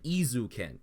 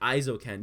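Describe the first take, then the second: First: The name begins with an 'ee' sound. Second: The name begins with an 'eye' sound. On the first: The speaker calls it wrong. "he's saying Izuken like e" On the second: The speaker calls it right. "you're still closer because you're still like sticking to e e i as like I"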